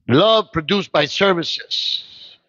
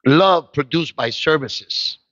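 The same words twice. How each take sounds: First: Even slower, drawn out; slower emphatic. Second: Slow, weighty preaching line; slow emphatic. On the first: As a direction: stretch every word. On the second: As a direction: lean on each word slowly. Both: Real, not acted.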